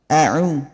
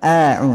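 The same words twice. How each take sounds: First: The opening vowel is kept short. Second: The opening vowel is drawn out long. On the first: The speaker calls it right. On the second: The speaker calls it wrong. "Jangan dipanjangkan. A'u, enggak"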